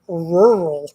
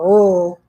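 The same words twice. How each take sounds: First: Both R sounds are clearly pronounced. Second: One R sound is dropped or blurred. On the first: The speaker calls it right. "There's two R's in rural" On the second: The speaker calls it wrong. "It's not rural"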